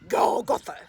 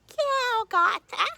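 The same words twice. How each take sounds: First: It is said in a deep daddy voice. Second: It is said in a high baby voice.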